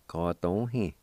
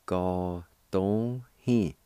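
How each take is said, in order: First: Said in the usual way. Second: "Ga don hin" drawn out slowly, each syllable held long; slow model of "Ga don hin" for students; very slow demo. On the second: Shown as a demonstration. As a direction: stretch out "Ga don hin" for learners. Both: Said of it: "It's pronounced like this".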